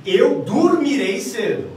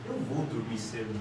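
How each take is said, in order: First: Slow, high and loud, fully certain; inverted intonation, assertive. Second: Very low, soft, noncommittal; inverted intonation, unsure. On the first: Teacher inverts the intonation for students, loud and certain. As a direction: declare it firmly, stretching each word. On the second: Teacher inverts the intonation for students, soft and doubtful. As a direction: say it quietly, as if doubtful. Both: Shown as a demonstration. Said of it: "eu posso inverter a minha intenção, minha entonação".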